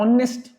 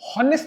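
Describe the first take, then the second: First: The word starts directly with a vowel sound. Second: The word starts with an audible h sound. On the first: The speaker calls it right. "आप ऑनेस्ट बोल रहे हो, ऑनेस्ट ओ से" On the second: The speaker calls it wrong. "हॉनेस्ट नहीं है"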